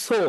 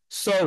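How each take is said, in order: First: Said in the usual way. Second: So with a gliding o-u vowel; English so diphthong. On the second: Shown as a demonstration. Teacher contrasts the English So with the Bengali one. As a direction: round So into a glide. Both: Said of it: "কখনো so শুনছো?".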